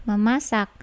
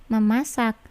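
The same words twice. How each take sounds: The two takes are said the same way.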